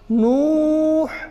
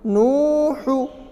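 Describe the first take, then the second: First: The final vowel is dropped, ending on a consonant. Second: The word ends with a short final vowel.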